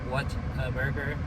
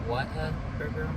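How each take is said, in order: The two takes are said the same way.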